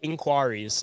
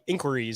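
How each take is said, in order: First: It is said the British way. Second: It is said the American way.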